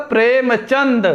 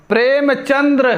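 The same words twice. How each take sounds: First: प्रेमचंद ending in plain d; correct form. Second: प्रेमचंद्र ending in dra; wrong form. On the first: Teacher answering with the right name, correct form. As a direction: close प्रेमचंद on chand, no r. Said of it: "शुद्ध क्या होगा?". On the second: Teacher quoting the wrong name, wrong form. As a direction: roll an r after the d in प्रेमचंद्र. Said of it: "ये अशुद्ध है". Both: Shown as a demonstration.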